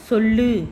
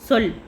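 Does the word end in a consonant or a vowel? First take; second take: vowel; consonant. First: The word ends with an added u vowel. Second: The word ends on the l consonant. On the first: This is the everyday spoken form. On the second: This is the formal written form.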